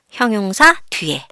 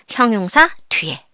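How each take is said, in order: Both takes have the same delivery.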